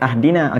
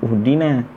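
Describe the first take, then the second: First: The word begins with an a vowel. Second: The word begins with a u vowel. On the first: "Kalau nak bunyi ahdina, ingat kena ada alif lam" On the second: "Kenapa kita tak bunyi uhdina?"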